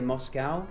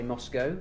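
First: It is said in an American accent. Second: It is said in a British accent. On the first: "Americans say Moscow" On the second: "We say Moscow"

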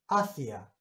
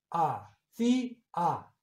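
First: The stress is on the first syllable. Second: The stress is on the second syllable. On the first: "que es una palabra llana" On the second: "porque digo hacía, suena fuerte para sílaba tónica"

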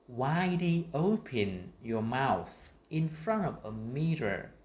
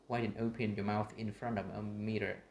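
First: It is spoken slowly with exaggerated articulation. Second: It is spoken faster with relaxed, normal articulation. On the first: "là mở rộng miệng và phát âm ở trước một cái gương" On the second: "Còn khi chúng ta nói bình thường trở lại như này"

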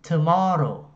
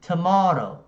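The two takes are said the same way.

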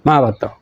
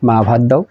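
First: The request is said in a harsh, unpleasant tone. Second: The request is said in a gentle, pleasant tone. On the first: The listener is displeased and refuses the request. The speaker calls it wrong. "মা ভাত দিল না" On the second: The listener is pleased and grants the request. The speaker calls it right. "মা খুশি হয়ে ভাত দিল"

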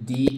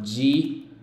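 First: The syllable begins with a plain d sound. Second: The syllable begins with a j sound. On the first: The speaker calls it wrong. "aquí no es di" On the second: The speaker calls it right. "sino ji"

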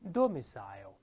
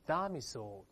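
First: It is said in the standard way. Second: It is said with American-style vowels.

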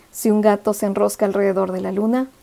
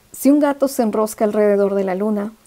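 Both takes have the same delivery.

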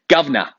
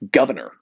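First: The word is said with the R sounds dropped. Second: The word is said with the R sounds pronounced. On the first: This is how many British people say it. "a lot of British people would say, governor. ... They drop the R" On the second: This is how an American says it. "where an American would say governor"

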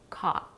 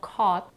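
First: The vowel sounds like the one in father. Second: The vowel sounds like the one in four. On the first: "in California, it's pronounced with A as in father" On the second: "in some states, O is in caught"

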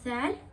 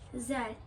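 First: The first consonant is lisped, tongue between teeth. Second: The first consonant is a plain z sound. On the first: The speaker calls it right. "Bakın böyle peltek okudum" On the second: The speaker calls it wrong. "Yani peltek okumuyor"

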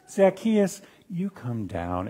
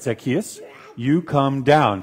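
First: It is said in a friendly tone. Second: It is said in a stern tone.

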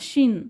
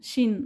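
First: The vowel is a short 'i' sound. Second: The vowel is a short 'i' sound.

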